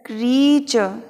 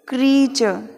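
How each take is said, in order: First: It starts with one long vowel, kree. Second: The same.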